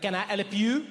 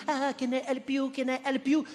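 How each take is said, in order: First: Irritated "Can I help you?" with a rising end; a put-out, grudging offer of help; annoyed clerk. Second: Higher, overeager "Can I help you?"; a chirpy, hovering shop assistant; eager American clerk. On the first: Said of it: "an annoyed voice behind me". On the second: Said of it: "they are all on top of you". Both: Retold or imitated.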